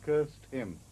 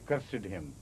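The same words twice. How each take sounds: First: "cursed" in one syllable, KURST; verb pronunciation. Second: "cursed" in two syllables, KUR-sid; wrong extra syllable. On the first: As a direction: say "cursed" ending in -st. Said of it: "when it is a verb". ("cursed" with a silent e, as KURST) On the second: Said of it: "you don't say cursed him". ("cursed" with the -ed sounded, KUR-sid) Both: Shown as a demonstration.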